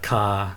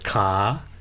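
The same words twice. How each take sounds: First: The pitch stays low throughout. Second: The pitch rises from low to high. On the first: Galangal, a plant in the ginger family. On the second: Leg.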